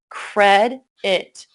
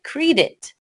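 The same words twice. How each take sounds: First: The first vowel sound is short. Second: The first vowel sound is long. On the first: The speaker calls it right. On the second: The speaker calls it wrong.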